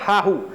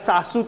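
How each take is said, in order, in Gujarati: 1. આ શબ્દ 'h' અવાજો સાથે બોલાય છે. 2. આ શબ્દ 's' અવાજો સાથે બોલાય છે.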